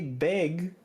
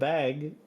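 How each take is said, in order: First: The vowel sounds like the e in 'beg'. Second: The vowel sounds like the a in 'bag'. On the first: This is how some people in Toronto say it. "there are people in Toronto ... they say beg instead of bag" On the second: This is how people in Montreal say it. "instead of bag"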